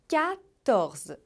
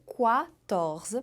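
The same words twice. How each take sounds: First: It begins with a plain k sound. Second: It begins with a kw sound. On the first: The speaker calls it right. "O mais importante é você lembrar de fazer som de K" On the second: The speaker calls it wrong. "E não dizer quatorze, porque tem muita gente que diz quatorze"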